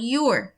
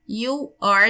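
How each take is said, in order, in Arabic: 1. الكلمتين بيتختصروا في مقطع واحد. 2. بتتقال الكلمتين منفصلين.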